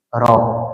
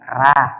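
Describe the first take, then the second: First: The R syllable is heavy and thick. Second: The R syllable is light and thin. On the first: The speaker calls it right. "ro dibaca tebal" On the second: The speaker calls it wrong. "Ra itu tipis"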